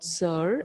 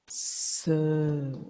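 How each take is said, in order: First: The vowel is said with an r colouring. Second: The vowel is a long plain sound without r. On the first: The speaker calls it wrong. "the pronunciation is not sir as we say now" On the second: The speaker calls it right. "it is sir, like this"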